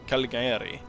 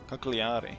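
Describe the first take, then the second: First: The name is said as Caligari. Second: The name is said as Cagliari. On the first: The speaker calls it wrong. "It's not Caligari" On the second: The speaker calls it right. "Cagliari, right?"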